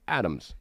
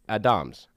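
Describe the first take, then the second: First: The stress is on the first syllable. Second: The stress is on the second syllable. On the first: "if it's on Ad, it's Adams" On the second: "if it's on Dom, it's Adams"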